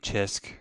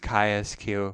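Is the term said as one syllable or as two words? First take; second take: one syllable; two words. First: It is said as one short syllable. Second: It is said as two words, chi square. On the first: The speaker calls it wrong. "Don't say chisk" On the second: The speaker calls it right. "it is chi-sq"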